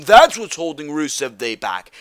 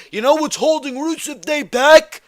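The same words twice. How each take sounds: First: Firm falling statement, "That's" stressed; emphatic answer. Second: High-pitched, indignant question rising on "back"; incredulous rhetorical question. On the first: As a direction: land the answer firmly, falling to "back". Answers his own rhetorical question. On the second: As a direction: throw it out high, demanding an answer. Rhetorical question before his answer. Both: Real, not acted.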